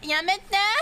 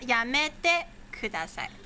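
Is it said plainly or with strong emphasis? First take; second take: strong emphasis; plainly. First: It is said with strong feeling and emphasis. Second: It is said plainly, without extra emphasis.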